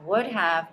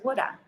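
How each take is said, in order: First: Both words are said fully and separately. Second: The words are reduced and blended into one.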